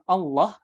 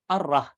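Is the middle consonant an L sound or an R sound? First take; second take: L; R. First: The middle consonant is an L sound. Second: The middle consonant is an R sound. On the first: The speaker calls it right. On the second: The speaker calls it wrong.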